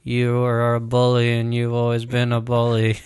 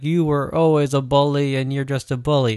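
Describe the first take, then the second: First: It is said flat, with no emotion. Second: It is said with some emotion.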